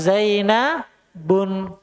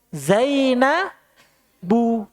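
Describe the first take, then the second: First: The name ends with an added n sound. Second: The name ends in a plain vowel, no n. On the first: The speaker calls it wrong. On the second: The speaker calls it right.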